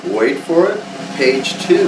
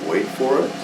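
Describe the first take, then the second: First: Drumroll voice, then the reveal; building reveal. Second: Soft suspense build-up; quiet tease before the reveal; hushed teasing. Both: Pretend.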